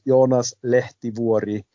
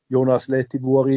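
First: It is said with Finnish pronunciation. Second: It is said with German pronunciation. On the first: "der heißt Jonas Lehtivuori" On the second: "ist genauso in Ordnung"

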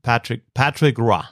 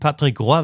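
First: The name is pronounced with English sounds. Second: The name is pronounced with French sounds. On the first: "das ist halt kanadisch-englisch" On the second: "als Franzose würde ich mal sagen Patrick Roy wahrscheinlich"

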